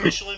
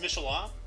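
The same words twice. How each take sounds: First: The name is said in an American way. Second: The name is said in a French way. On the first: This is how people in the States say it. "like we call him Michelin" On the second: This is the name's original pronunciation. "his actual name is Michelin"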